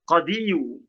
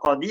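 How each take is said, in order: First: The word ends with an added 'yu' sound. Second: The word ends on a long 'i' sound. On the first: The case ending is pronounced openly. The speaker calls it wrong. "Harusnya kan dibaca qadiyu" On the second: The case ending is only implied, not pronounced. The speaker calls it right. "Tetapi cukup dibaca jaa al-qadi"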